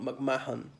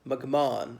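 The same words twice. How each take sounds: First: An H sound is pronounced in the middle. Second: The H is silent in the middle. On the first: The speaker calls it wrong. "It's not McMahon" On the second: The speaker calls it right. "The H is silent"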